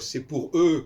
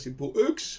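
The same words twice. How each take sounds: First: The final consonant of 'eux' is silent. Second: The final consonant of 'eux' is pronounced. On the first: The speaker calls it right. "au lieu de dire" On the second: The speaker calls it wrong. "c'est tellement ridicule cette façon de parler"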